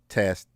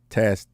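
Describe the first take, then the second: First: The low frequencies are cut, sounding thinner. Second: The low frequencies are kept, sounding fuller. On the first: "This is rolling off the low end" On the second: "Now we're in the upward position"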